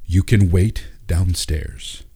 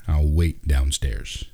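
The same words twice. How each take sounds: First: Flat, slow, cold delivery; deadpan, unmoved reply; emotionless. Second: Said in the usual way. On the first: Acted. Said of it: "with no emotion on his face".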